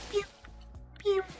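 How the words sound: It is said in a high-pitched, narrow voice. "when it's not deep voice but high high pitched like"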